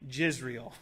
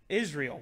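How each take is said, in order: First: The word begins with a J sound. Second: The word begins without a J sound. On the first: The speaker calls it wrong. "we don't say Jisrael" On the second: The speaker calls it right. "We say Israel"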